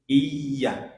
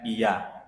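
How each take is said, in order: First: 'Iya' as 'iy-ya', pressing the y; pressed doubled y. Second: Said in the usual way. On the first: Shown as a demonstration. Teacher showing the doubled letter, pressed y. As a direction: lean on the middle of 'Iya'. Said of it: "ada tasdidnya ya". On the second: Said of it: "Jangan seperti orang menjawab iya".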